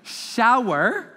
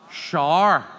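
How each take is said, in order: First: "shower" in two syllables, "show-er" rhyming with flower; standard shower. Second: "shower" as one syllable, "shar"; Northern Irish shower. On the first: Teacher quotes the audience's way, two-syllable "shower". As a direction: slowly open out "shower" with rising tune. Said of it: "You would say". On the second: Teacher shows local speech, Northern Irish "shar" for shower. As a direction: say "shower" like "sharr", falling. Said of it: "In Northern Ireland, they say". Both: Shown as a demonstration.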